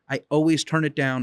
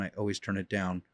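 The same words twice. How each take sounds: First: Said in the usual way. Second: "I always turn it down." dropped much softer, with "always" still stressed; quiet repeat. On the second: Shown as a demonstration. Trainer repeating the point to owners, trailing off quietly. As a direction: let "always" fall away to a near murmur. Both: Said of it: "I'm saying it louder".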